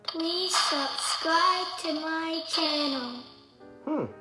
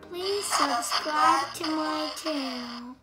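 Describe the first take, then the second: First: The voice repeats back with an echo. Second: The voice is made deep like a man's. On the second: "Man now?"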